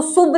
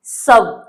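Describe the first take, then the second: First: शुभ said as "soob", with an "oo" vowel; शुभ as the mistaken "soob" reading of s-u-b; misreading with "oo". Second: सब with a short open "uh" vowel, like English "sub"; सब, short "uh" sound, pitch falling; correct reading सब. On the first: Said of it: "इसको शुभ नहीं पढ़ेंगे". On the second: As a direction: say सब as "sub", never with an "oo". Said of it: "तो इसको क्या पढ़ेंगे?". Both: Shown as a demonstration.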